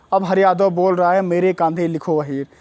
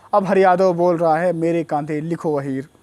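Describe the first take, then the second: No difference in how they are said.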